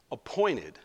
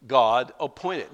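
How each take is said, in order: First: Said in the usual way. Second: "appointed" slowed and weighted; slow stress on appointed. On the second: Shown as a demonstration. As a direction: lean on "appointed".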